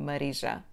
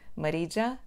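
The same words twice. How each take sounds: First: The name is said with a Portuguese accent. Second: The name is said with an English accent. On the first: "os portugueses pronunciam o meu nome" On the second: "Os falantes de inglês pronunciam-o como"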